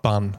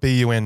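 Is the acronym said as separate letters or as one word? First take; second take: one word; letters. First: It is said as the single word bun. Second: It is spelled out as three separate letters. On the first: The speaker calls it wrong. "not BUN" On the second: The speaker calls it right. "I think it should be called BUN"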